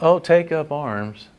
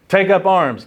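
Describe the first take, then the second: First: It is said in a casual, offhand way. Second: It is said as an urgent command.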